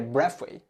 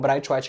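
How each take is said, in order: First: The name ends with a 'wait' sound. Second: The name ends with a 'white' sound. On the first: This is how the name is properly pronounced. "a pronúncia certa" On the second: This is how broadcasters in Brazil say the name.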